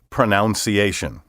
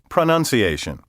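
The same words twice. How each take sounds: First: The second syllable sounds like 'noun'. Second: The second syllable sounds like 'nun'. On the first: The speaker calls it wrong. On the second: The speaker calls it right.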